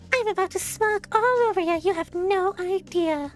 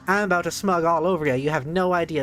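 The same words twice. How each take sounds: First: It is said in a put-on character voice. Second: It is read in his normal voice.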